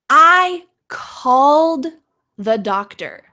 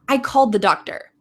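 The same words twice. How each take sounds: First: It is said slowly with a clear D sound. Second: It is said quickly with the D sound dropped. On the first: "This is slowly. You can hear the D" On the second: "if I say the second sentence"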